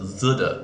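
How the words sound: The word begins with a Z-like sound. "some people pronounce it zuda"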